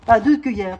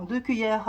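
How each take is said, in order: First: "deux" punched louder, falling; correcting herself, hit "deux" hard; stress on deux. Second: Said in the usual way. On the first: Real, not acted.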